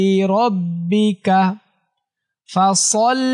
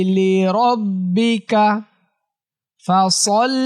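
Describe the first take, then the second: The two takes are said the same way.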